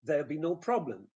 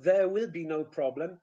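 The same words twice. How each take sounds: First: "There'll be no problem" with will almost swallowed; linked "There'll be no problem", falling at the end; contracted form. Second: "There will be no problem" with WILL sounded in full; louder, separate "There will"; careful uncontracted "There will be no problem"; full uncontracted form. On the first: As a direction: shorten "There'll" to one syllable. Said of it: "you shorten". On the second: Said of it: "Instead of". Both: Shown as a demonstration.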